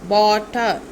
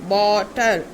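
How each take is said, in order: The two takes are said the same way.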